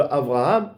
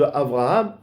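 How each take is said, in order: First: The second consonant is a soft v sound. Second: The same.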